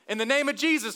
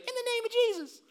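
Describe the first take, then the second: First: It is said sincerely and plainly. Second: It is said in a mocking voice.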